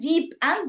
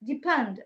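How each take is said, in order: First: The two words are said separately. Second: The two words run together like one word. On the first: "instead of saying deep and" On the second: "they say depend"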